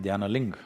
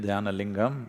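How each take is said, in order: First: The final syllable is cut off, northern Indian style. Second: The final syllable is kept.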